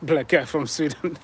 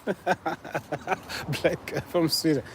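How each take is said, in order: First: Said in the usual way. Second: Slow, soft, through a laugh; amused repeat. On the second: Real, not acted. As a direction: savour the silly guess with a chuckle. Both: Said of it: "you guys are so funny".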